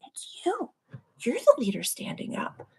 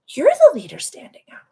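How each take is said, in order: First: Soft whisper. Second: Higher, louder emphatic whisper; loud stage whisper. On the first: Telling viewers they lead. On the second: Host insists to viewers they are the leaders, in a forceful stage whisper. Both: Real, not acted.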